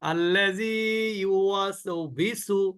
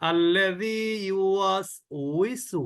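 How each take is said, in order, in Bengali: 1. শেষ অংশটি v ধ্বনি দিয়ে শুরু হয়। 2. শেষ অংশটি w ধ্বনি দিয়ে শুরু হয়। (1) "ইউওয়াসবিসু না।" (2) "আমি মনে করি যে আমি এটাই সঠিক।"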